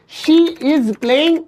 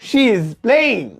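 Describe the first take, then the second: First: She is is said as two full words. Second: She is is shortened into one syllable. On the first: The speaker calls it wrong. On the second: The speaker calls it right.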